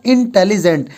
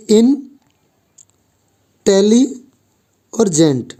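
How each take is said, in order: First: Said in the usual way. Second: इंटेलिजेंट drawn out very slowly as in-te-li-jent; slow syllable split. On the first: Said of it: "देखो मैं आपके सामने एक". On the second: Shown as a demonstration. Teacher shows students the syllables of इंटेलिजेंट, very slow and split. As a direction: say इंटेलिजेंट syllable by syllable, stretching each part. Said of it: "इसको हमने इन बोला, टेली बोला और जेंट बोला".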